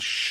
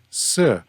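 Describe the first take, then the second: First: It is said with 'sh', as in northern Mandarin. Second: It is said with 's', as in southern Mandarin.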